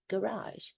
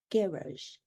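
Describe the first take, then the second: First: Garage said guh-RAHZH, stressed on the second syllable; garage with American second-syllable stress; American pronunciation. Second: Garage said GARR-izh, stressed on the first syllable; garage with English first-syllable stress; English pronunciation. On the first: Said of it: "We say garage in the United States". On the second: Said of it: "they say it in England with an English accent". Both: Shown as a demonstration.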